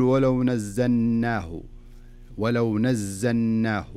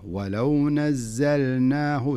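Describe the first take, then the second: First: ولو said with the lam swallowed, slow; wrong swallowed lam. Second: ولو with the lam sounded clearly before نزلناه, very slow. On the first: Teacher showing student the wrong way, lam swallowed. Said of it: "فلذلك لا تقول". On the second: Teacher showing the right way, lam sounded clearly. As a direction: sound the lam of ولو fully, then the nun. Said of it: "خلها اللام ظاهرة". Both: Shown as a demonstration.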